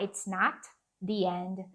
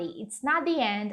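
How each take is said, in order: First: The T at the end of not is pronounced. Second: The T at the end of not is dropped. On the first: The speaker calls it wrong. "ao invés de falar it's not the end, desnecessário" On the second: The speaker calls it right. "é muito provável deles cortarem literalmente um desses sons de T"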